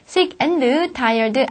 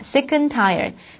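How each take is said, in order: First: The word 'and' is said in full. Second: The word 'and' is reduced to 'n'. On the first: The speaker calls it wrong. "아닙니다" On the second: The speaker calls it right. "and가 늦자로 바뀌는 발음"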